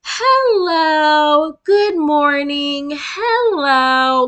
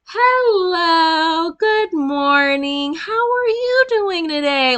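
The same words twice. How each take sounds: First: High, loud, slow singsong greeting; mock a cheery children's show host; sugary kids' host. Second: High, slow singsong greeting rising very high; mock an overly cheerful children's host; sugary kids' host. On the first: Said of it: "You not finna". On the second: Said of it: "turn around and".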